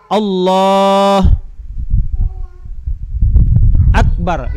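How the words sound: There is a long pause between the words.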